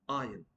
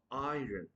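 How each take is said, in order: First: Iron as "eye-un"; correct pronunciation. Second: Iron as "eye-run"; mispronounced iron. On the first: Teacher drilling the silent R, Iron as "eye-un". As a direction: leave out the R in Iron. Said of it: "R would be silent". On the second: Teacher showing the mistake, iron as "eye-run". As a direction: sound the R in iron. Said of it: "not iron". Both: Shown as a demonstration.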